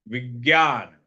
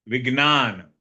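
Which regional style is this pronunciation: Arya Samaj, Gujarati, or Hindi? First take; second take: Hindi; Gujarati. First: It is said the Hindi speakers' way. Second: It is said the Gujarati speakers' way.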